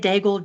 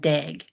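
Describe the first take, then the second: First: The name is said with an English pronunciation. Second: The name is said with a French pronunciation. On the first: "I say Daigle just because, and it's anglicized" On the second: "she pronounced it Lauren Dag"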